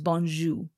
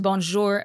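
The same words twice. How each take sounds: First: It is said with a Haitian Creole pronunciation. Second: It is said with a French pronunciation.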